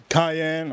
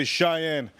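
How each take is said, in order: First: "Cayenne" opening on a hard kai sound. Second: "Cheyenne" opening like shy, as in the singer's name; Cheyenne, SH sound. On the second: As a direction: say "Cheyenne" with a soft SH at the start. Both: Shown as a demonstration. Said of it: "I'm gonna say Cheyenne".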